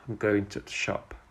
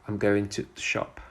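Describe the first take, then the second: First: The word 'to' is reduced to a weak sound. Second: The same.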